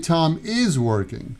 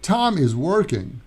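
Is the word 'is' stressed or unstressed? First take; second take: stressed; unstressed. First: The word 'is' is stressed. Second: The word 'is' is unstressed. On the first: The speaker calls it wrong. "We don't say Tom is working" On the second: The speaker calls it right. "We say Tom is working"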